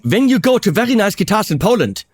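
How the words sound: It is spoken with a German accent.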